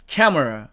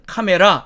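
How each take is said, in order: First: It is said with an English pronunciation. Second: It is said as a Korean loanword. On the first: The speaker calls it right. "영어식으로 읽으면 camera" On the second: The speaker calls it wrong. "이걸 우리는 카메라 이렇게 읽습니다"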